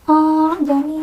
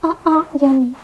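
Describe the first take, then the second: First: The second vowel is drawn out into a long sound. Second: Both hamzah sounds are pronounced fully and clearly. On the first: "Tidak juga dipanjangkan ya, bukan seperti" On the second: "Kita tidak membaca"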